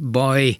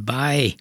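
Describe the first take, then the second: First: The vowel is short and rounded. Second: The vowel is long and open. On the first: This is the standard form of the word. "a baj helyett" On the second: This is the local Swabian German form. "báj, kiejtés, az már svábos"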